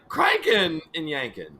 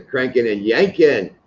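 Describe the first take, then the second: First: Exaggerated, drawn-out "cranking", light "and yanking"; stress on CRANKING. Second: "cranking and yanking", landing on "yanking"; stress on YANKING. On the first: Showing how weird it would sound, stress on "cranking". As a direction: overdo the accent on "cranking". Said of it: "It would sound weird if". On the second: Showing the preferred accent, stress on "yanking". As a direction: hit "yanking" harder than "cranking". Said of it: "the yanking as being the accent". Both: Shown as a demonstration.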